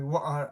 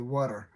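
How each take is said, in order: First: British "What are" with a crisp, fully pronounced T; British accent. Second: American "water" with the T left unclear; American accent. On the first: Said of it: "they pronounce the T so". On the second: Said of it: "never ever pronounce the T properly". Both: Shown as a demonstration.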